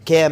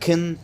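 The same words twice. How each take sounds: First: The word has a full, clear vowel. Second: The word has a weak, reduced vowel.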